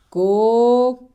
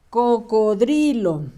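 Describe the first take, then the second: First: "Cocodrilo" split into long, separate syllables; sounding out. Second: Said in the usual way. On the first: Shown as a demonstration. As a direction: dictate "Cocodrilo" with long pauses between syllables. Sounds out word while writing.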